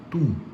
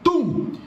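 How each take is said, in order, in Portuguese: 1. O som é dito muito baixinho. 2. O som é dito em voz alta. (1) "quando B um tem uma altura abaixo da normal... Tum, baixinho" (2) "quando B um tem uma altura acima da normal, nós chamamos de B um de hiperfonética"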